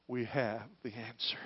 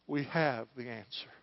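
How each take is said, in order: First: Whisper. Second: Said in the usual way. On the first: Acted. Repeated line, whispered first.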